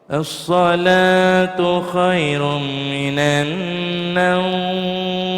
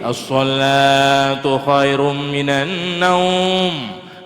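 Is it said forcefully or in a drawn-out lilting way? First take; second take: drawn-out; forceful. First: It is said slowly, drawn out and lilting. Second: It is said forcefully, with a fierce tone.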